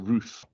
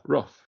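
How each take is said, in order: First: The vowel is a long 'oo' sound. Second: The vowel is a short 'uh' sound. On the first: "I'd have a bee in my bonnet about saying roof because it doesn't sound right" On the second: "I just always knew them as rough"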